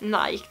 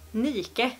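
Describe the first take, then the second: First: The name is said as one syllable. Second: The name is said as two syllables. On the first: The speaker calls it wrong. "det uttalas inte Nike" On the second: The speaker calls it right. "Det uttalas Nike"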